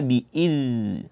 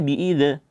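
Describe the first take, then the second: First: The z sound flows out continuously before moving on. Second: The z sound is cut short with a bounce. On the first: The speaker calls it right. "tapi dibaca bi'idz" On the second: The speaker calls it wrong. "jangan dibaca bi'idz"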